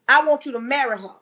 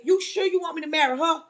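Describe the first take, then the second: First: Firm restatement, falling at the end; specific, firm. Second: Mildly incredulous question, rising at the end; doubting question. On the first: God answering the doubting man, specific and firm. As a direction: lay down the instruction plainly and firmly. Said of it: "God was so specific". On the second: Man questioning God's order to marry, mildly incredulous. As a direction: check back in disbelief, lightly acted. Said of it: "the man looked at God and said". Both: Retold or imitated.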